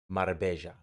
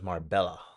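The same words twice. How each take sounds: First: The double L is said as a J sound. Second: The double L is said as an L sound. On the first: "Double L is pronounced like a J" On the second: "I thought it was"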